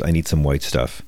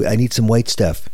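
First: Said in the usual way. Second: Higher, mock-upset Trump impression; put-on exasperation, pitched up. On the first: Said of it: "He says". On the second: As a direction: imitate a fussy, put-out president. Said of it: "He's so upset".

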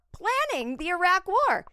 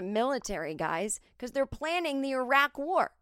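First: High, loud disbelieving repeat; the comic can't believe who she served; outraged exclamation. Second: Said in the usual way. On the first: Real, not acted. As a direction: yell it in outrage at the absurdity.

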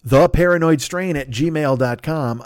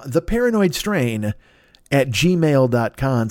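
First: Slow and deliberate; slow, spelled out. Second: Very slow, word by word; slower dictation. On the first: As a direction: read the address out slowly. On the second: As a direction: dictate it slowly. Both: Shown as a demonstration. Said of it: "write him a note at this address".

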